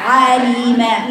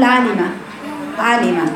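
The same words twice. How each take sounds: First: عالمة slowly with a full throaty ayn; careful, drawn-out عالمة with ayn from the throat; correct articulation. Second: عالمة run together quickly, letters not placed; loosely articulated, short عالمة; careless articulation. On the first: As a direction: stretch عالمة, giving each letter its own place. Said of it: "شوفي صوت العين منين؟". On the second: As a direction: rush through عالمة without careful ayn, lam or meem. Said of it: "لو أنا ما أعرفش المخارج". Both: Shown as a demonstration.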